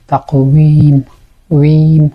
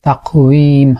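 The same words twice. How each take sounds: First: তাকওয়িম with the ওয়ি lips rounded and pushed; stressed rounded waw. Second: Said in the usual way. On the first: Shown as a demonstration. Teacher repeating তাকওয়িম to stress the rounded waw. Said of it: "ওয়াও যখন উচ্চারণ করছি". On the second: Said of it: "বা".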